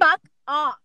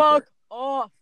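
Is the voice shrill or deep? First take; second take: shrill; deep. First: It is said in a thin, shrill voice. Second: It is said in a deeper, louder voice.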